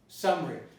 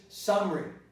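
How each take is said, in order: First: The middle vowel is dropped. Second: The same.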